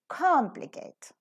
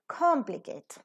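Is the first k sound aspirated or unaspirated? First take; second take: aspirated; aspirated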